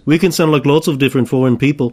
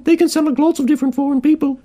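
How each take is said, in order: First: Said in the usual way. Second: Very high put-on Italian; silly, high-pitched fake foreigner voice; mock Italian. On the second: Demonstrating an Italian in a joke accent ad, mock Italian in high voice. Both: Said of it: "Here's an Italian".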